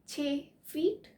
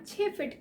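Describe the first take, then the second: First: The vowel in 'feet' is long. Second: The vowel in 'feet' is short. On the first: The speaker calls it right. "इसलिए इसका सही उच्चारण होगा" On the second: The speaker calls it wrong. "फीट की जगह फिट बोलते सुना है ... जो कि गलत है"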